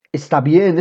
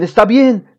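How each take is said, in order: First: Said in the usual way. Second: Higher and louder, pressing; firmer insistence. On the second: A narrator's reading. Father telling shouting son to calm down, firmer. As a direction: insist to settle him down.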